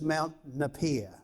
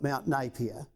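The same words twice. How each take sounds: First: The name is said in the local pronunciation. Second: The name is said in the general pronunciation. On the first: This is how people living in the town say it. "if you live in Hamilton, you call this" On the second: This is how everyone else says it. "the rest of the planet would call it"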